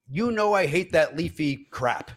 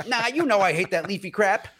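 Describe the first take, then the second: First: Slow, deliberate imitation of a grumble; cleaned-up retort. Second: Pitched-up comic irritation; mock angry retort. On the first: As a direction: spell out your disgust slowly. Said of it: "I'll clean it up". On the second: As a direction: imitate an annoyed customer snapping back. Acts the customer's angry retort.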